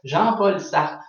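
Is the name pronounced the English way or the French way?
French. The name is said with a French pronunciation.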